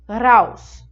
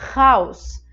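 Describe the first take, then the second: First: The R is trilled with the tongue behind the teeth. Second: The R is made at the back of the throat. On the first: "um som desse R atrás dos dentes" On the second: "Esse R da garganta"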